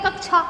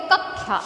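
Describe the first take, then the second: First: Said in the usual way. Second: कक्षा said as "kakkhya"; kh-y sound replacing ksh in कक्षा; Karauli pronunciation of कक्षा. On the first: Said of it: "अपन बोलते हैं". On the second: Retold or imitated. Teacher contrasts Karauli speech, कक्षा as "kakkhya". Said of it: "वो बोलते".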